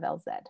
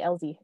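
First: The Z is said the British way, as zed. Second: The Z is said the American way, as zee.

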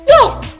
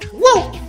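First: The voice is pitched high. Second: The voice is pitched in the middle. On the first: "his voice ranging from like high" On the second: "and then mid"

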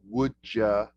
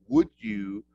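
First: The words run together into a shortened form. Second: Each word is said separately and clearly. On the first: "don't try making your words shortened" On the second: "very clear, precise pronunciation"

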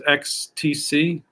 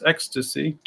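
First: The three letters are said slowly and separately. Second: The letters are run together quickly into one word.

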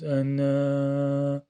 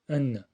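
First: The vowel is drawn out and lengthened. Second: The vowel is kept short, not lengthened. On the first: The speaker calls it wrong. "Yani böyle demiyoruz. Enne bu yanlış arkadaşlar" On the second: The speaker calls it right. "kısa"

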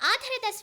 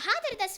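First: The word begins directly with a vowel sound. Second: The word begins with an h sound. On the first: It expresses a respectful welcome. The speaker calls it right. "ನಿಮಗೆಲ್ಲ ಆಧಾರದ ಸ್ವಾಗತ ಅಂತ ನಾವೆಲ್ಲ ಹೇಳ್ತೀವಿ" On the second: The meaning turns offensive. The speaker calls it wrong. "ಆ ಬದಲು ಹಾ ಹಾಕಿ"

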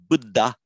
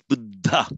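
First: The dh sound has no audible h. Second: The dh sound has an audible h. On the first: The speaker calls it wrong. "that's not Buddha" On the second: The speaker calls it right. "There's a distinctly audible H there"

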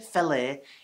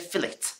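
First: It is said the continental, non-British way. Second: It is said the usual British way. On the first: "we don't say fillet in the UK" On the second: "No, we say fillet"

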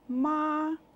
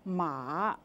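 First: The syllable is said without the third tone. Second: The syllable is said with the third tone. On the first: It means mother. "if you wanted to call your mother in Chinese, you could say" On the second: It means horse. "But if you said it in the third tone"

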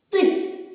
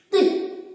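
The two takes are said the same way.

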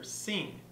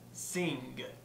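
First: It ends in a nasal with no g sound. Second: It ends with an audible g sound. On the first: "far more common to hear the velar" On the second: "some may in fact pronounce it"

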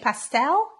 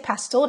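First: It is said with an American accent. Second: It is said with a British accent.

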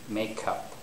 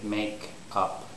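First: The final consonant links into the next word. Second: The two words are said separately. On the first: The speaker calls it right. "You say make up, make up. So the actual syllable break will be here" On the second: The speaker calls it wrong. "you don't normally say make up"

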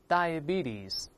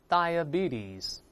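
No difference in how they are said.

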